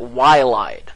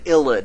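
First: The word begins with a "why" sound. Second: The word begins with an "ill" sound. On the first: The speaker calls it wrong. "don't you dare pronounce it Y-lied, because that's not how it's pronounced" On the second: The speaker calls it right. "I love this word ilid"

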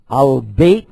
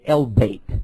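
First: The article is said with an 'a' vowel. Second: The article is said with an 'e' vowel. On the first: This is the form used in the Gulf. "Al-Bait means the house" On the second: This is the form used in North Africa. "if you go to Northern Africa, they say El-Bait"

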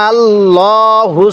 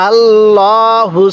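No difference in how they are said.

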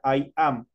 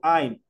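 First: It is said as two separate syllables. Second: It is said as one single syllable. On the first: "en la full form decía I am, dos tiempos" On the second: "En la short form yo digo I'm, una sola pronunciación"

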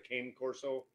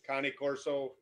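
First: The name is pronounced the common English way. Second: The name is pronounced the original Italian way. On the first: This is how most people say the name. "everybody knows it as" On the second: This is the proper pronunciation of the name. "is the correct pronunciation"

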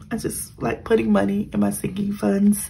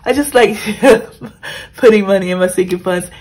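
First: The sentence is spoken at a quieter volume. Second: The sentence is spoken at a louder volume. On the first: The speaker calls it wrong. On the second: The speaker calls it right.

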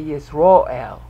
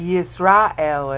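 First: The stressed vowel is an O sound. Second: The stressed vowel is an A sound. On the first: This is how people say it today. "pronounce A sounds as O sounds" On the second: This is the older pronunciation. "they don't say Yisrael anymore"

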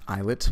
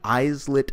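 First: The s sound is silent in the word. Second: The s sound is pronounced in the word. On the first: The speaker calls it right. "It's actually pronounced islet" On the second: The speaker calls it wrong. "I'm mispronouncing it just to let you know how it's spelled"

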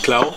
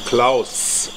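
First: The name ends without the final s sound. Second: The name ends with a clear final s sound. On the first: The speaker calls it wrong. "Nicht Klau" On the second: The speaker calls it right. "sondern Klaus"

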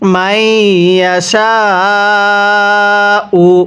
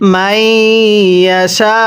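First: The word ends with a final u vowel. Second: The word ends without the final vowel. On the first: The reading continues without a stop. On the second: The reading stops at this word.

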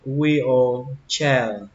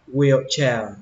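First: The word is said slowly, each part full. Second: The word is said quickly, vowels reduced. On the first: "phân tích nó ra thì nó là wheelchair" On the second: "khi đọc nhanh thì các bạn đọc như thế này cho mình"

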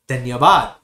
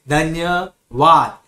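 First: The word is said smoothly together without pauses. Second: The word is broken up with pauses between syllables. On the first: The speaker calls it right. "you have to use together" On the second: The speaker calls it wrong. "You don't have to say ... There is no pause"

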